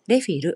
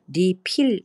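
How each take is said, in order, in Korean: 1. 일본식 외래어 발음으로 말합니다. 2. 한국식 외래어 발음으로 말합니다. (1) "일본어 발음으로 말씀드리자면" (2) "리필 이렇게 발음을 해도 통하지 않는 경우가 많습니다"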